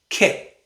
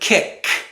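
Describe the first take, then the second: First: The final k is a glottal stop. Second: The final k is fully released. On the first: The speaker calls it right. "we say kick. We stop the air in our throat" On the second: The speaker calls it wrong. "Instead of kick"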